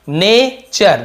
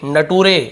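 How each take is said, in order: First: The middle consonant is a 'ch' sound. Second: The middle consonant is a plain 't' sound. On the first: The speaker calls it right. "लेकिन एक्चुअल में क्या है" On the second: The speaker calls it wrong. "ऐसे पढ़ देते हैं, कई लोग मजाक में ऐसे बोल देते हैं"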